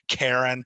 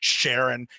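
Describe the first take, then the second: First: The name begins with a k sound. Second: The name begins with a sh sound. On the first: "It's Karen, right?" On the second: "however you pronounce the name of it"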